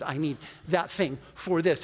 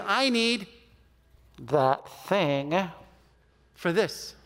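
First: Said in the usual way. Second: Slow, broken up before THAT THING and FOR THIS; pointed correction. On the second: Retold or imitated. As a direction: leave long gaps around "that thing". Friend spells out the mistaken phrase.

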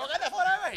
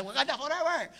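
First: Grito mucho más agudo y fuerte; gritándolo contagiado por el público; grito propio. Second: Mock grito agudo de Wakanda forever; grito del cine. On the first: Retold or imitated. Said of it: "y yo estaba como". (grito eufórico imitado, más agudo) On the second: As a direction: corea como el público del cine. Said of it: "empiezan el cine a gritar". (grito de fan imitado)

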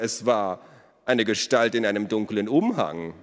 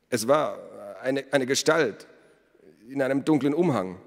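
First: Mocking repetition. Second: Halting, higher-pitched recollection; hesitant witness. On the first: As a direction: parrot the feeble excuse with mock drama. Elos mockingly repeats the smith. (spöttisch dramatisch wiederholt) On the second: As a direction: stumble on "eine, eine", unsure of yourself. Smith haltingly describes the stranger. (zögernd, stockend, höhere Stimme) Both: A narrator's reading.

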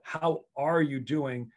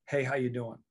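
First: Slow, deliberate, each word given weight; sincere question. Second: Quick, throwaway hello; casual greeting. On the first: Coach checking on a player, sincere and unhurried. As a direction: ask it slowly like you truly want the answer. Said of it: "I really wanna know". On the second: Coach showing a mere hello, offhand and casual. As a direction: toss it off in passing, expecting no answer. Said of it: "that's hello". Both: Shown as a demonstration.

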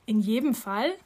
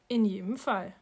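First: "Fall" rising as a question; questioning echo, voice climbing at "Fall"; checking question. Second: "Fall" dropping as a statement; settled answer with "Fall" falling; firm confirmation. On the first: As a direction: ask it back, lifting "Fall". Child questions the repeated words. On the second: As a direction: confirm it evenly, closing down on "Fall". Mother confirms the same words. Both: A narrator's reading.

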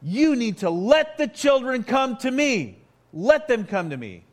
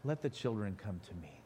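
First: "let" punched, much higher and louder; a firm, angry order; indignant command. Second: Put-on "Let the children come to me" said much softer, lower and gentle; soft, gentle version. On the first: Retold or imitated. Jesus ordering the disciples to let the children come, loud and stern. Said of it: "I don't think this was a soft-spoken word". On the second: Shown as a demonstration. Pastor showing the gentle reading of Jesus' words, said softly. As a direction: whisper it tenderly, the soft way people imagine it. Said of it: "doesn't that sound like a soft thing".

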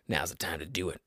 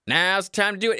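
First: Much lower and softer, almost under the breath; hushed aside. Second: Said in the usual way. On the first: Real, not acted. Podcaster slipping a pitch to listeners, hushed. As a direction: drop it into a low, quiet murmur. Low aside, then projected repeat.

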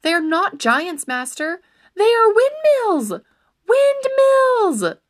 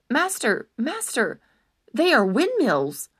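First: Building from a raised plea to a high, loud cry; urgent shouting. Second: Urgent. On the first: Squire shouts at his charging master, building to a high, loud cry. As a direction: shout the warning louder and higher each time. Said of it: "his squire's urgent cries". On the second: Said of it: "Sancho repeated urgently". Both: Acted.

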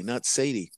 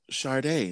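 First: Sadie as SAY-dee; dismissive SAY-dee for Sadie; rejected misreading. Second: [name] as shar-DAY; SH start in [name]; usual [name]. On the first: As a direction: stress the first syllable of Sadie. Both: Shown as a demonstration. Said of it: "not Sadie".

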